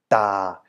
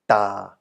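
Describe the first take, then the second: First: The pitch stays low throughout. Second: The same.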